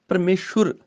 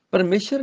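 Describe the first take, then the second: First: ਪਰਮੇਸ਼ਵਰ said "parmeshur", no v; correct pronunciation demo. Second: ਪਰਮੇਸ਼ਰ ending in "shar"; wrong pronunciation demo. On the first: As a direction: say ਪਰਮੇਸ਼ਵਰ with "shur" at the end. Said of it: "ਸੱਸੇ ਨੂੰ ਔਂਕੜ". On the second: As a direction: say ਪਰਮੇਸ਼ਰ with a short "a" after the sh. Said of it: "ਪਰਮੇਸ਼ਰ ਨਹੀਂ ਕਹਿਣਾ". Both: Shown as a demonstration.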